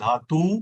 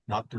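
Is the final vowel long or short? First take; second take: long; short. First: The final vowel is drawn out long. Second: The final vowel is kept short. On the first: "उच्चार लांबलेला" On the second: "आणि कमी"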